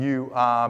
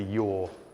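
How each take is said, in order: First: The two words are said in full. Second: The words are run together into one syllable. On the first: "being changed to" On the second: "being changed to your"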